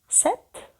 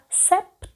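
First: The word is said without a p sound. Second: The word is said with a p sound. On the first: This is how a French speaker says it. "француз сказав «сет»" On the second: This is how a Swiss speaker says it. "швейцарець сказав «септ»"

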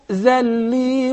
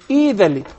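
First: It begins directly with the consonant. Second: It begins with an added i vowel sound. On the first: The word is joined to the words before it. "Rather, we say" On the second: The reciter starts reading at this word. "I would say Idhalli"

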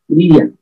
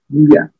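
First: The l and ia are said as separate parts. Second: The l and ia blend into one smooth sound. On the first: "la LI con la IA" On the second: "hacerlo un poquito más natural"

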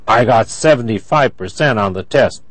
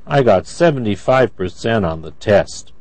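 First: The voice sounds angry. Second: The voice sounds sad. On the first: The speaker is upset about the score. "That's angry" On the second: The speaker feels down about the score. "That's sad"

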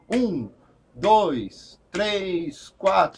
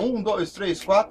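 First: The numbers are counted slowly. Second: The numbers are counted quickly. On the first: The song will be played at a slow tempo. "Se ele vai mais devagar" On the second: The song will be played at a quick tempo. "vai ser mais corrido"

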